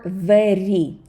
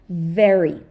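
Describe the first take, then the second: First: The r is pronounced as a Russian r. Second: The r is pronounced as an English r. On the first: The speaker calls it wrong. "like with the Russian r" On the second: The speaker calls it right. "but English re"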